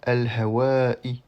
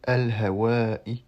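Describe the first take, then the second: Both takes have the same delivery.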